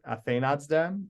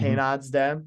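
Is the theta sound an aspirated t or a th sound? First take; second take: th sound; aspirated t. First: The theta is a fricative th sound. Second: The theta is an aspirated t stop. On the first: "as opposed to" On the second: "I generally try to do the aspirates, like"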